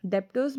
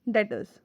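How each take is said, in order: First: डेप्टर्स with a p sound before the t, as "dep-ters"; wrong pronunciation. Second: डेटर्स as "det-ers", no p sound, b silent; correct pronunciation. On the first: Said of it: "डेप्टर्स मत कहना". (डेप्टर्स का गलत उच्चारण, p के साथ) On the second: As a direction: model डेटर्स cleanly with a silent b. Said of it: "इसका actual pronunciation क्या है?". (डेटर्स का सही उच्चारण, बिना p के) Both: Shown as a demonstration.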